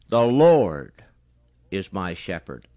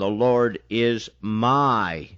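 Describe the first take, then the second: First: The stress is on the word Lord. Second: The stress is on the word my.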